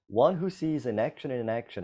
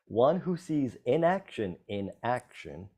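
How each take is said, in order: First: The phrase is said quickly. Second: The phrase is said slowly.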